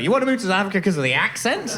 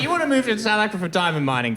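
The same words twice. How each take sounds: First: Fast, raised incredulous question; quick put-on incredulity; mock disbelief. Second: Quick, high mock question; fast put-on questioning; mock reasoning. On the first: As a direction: rise in disbelief on "accent". Mock disbelief at the weaker reason. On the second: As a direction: rattle it off as an acceptable premise. Acting out his reaction to the choice.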